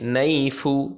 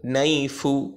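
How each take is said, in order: First: The word ends with a short vowel sound. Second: The same.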